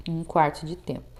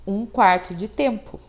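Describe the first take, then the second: First: Softer, lower echo of the answer; quiet repeat. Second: Said in the usual way. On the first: Shown as a demonstration. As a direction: say it again softly, letting it fall. (repetição suave e mais baixa) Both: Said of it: "qual que é a duração da semicolcheia?".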